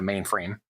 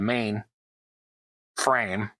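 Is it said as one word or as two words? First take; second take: one word; two words. First: It is said as one compound word. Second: It is said as two separate words. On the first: It names a large computer. The speaker calls it wrong. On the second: It names the main part of a structure. The speaker calls it right.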